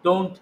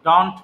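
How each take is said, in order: First: "don't" with a clear "ou" glide, "dount"; correct pronunciation. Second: "don't" said the way students shouldn't, flat vowel; wrong pronunciation. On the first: Teacher giving students the correct English sound, careful. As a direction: model the right "don't". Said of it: "don't বলতে হবে". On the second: Teacher showing students the wrong way, mock mistake. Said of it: "don't বলা যাবে না". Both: Shown as a demonstration.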